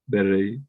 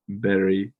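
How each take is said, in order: First: The R is a quick tapped flap. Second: The R is a quick tapped flap.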